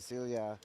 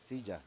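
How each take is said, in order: First: The double L sounds like an English L. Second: The double L sounds like an English J. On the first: This is the local pronunciation shaped by English. "you pronounce it like like in English" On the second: This is the standard Spanish pronunciation. "the double L in Spanish is actually like a J"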